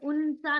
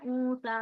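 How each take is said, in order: First: The n is pronounced as a clear consonant. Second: The n is hidden as a nasal sound. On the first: The speaker calls it wrong. "यहाँ पे उनसा नहीं बोल रहे हम" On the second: The speaker calls it right. "नाक में से आवाज निकली ना"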